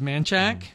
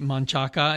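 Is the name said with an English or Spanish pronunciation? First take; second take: English; Spanish. First: The name is said with English pronunciation. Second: The name is said with Spanish pronunciation. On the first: The speaker calls it wrong. "instead of manchac" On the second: The speaker calls it right. "I do try to say manchaca"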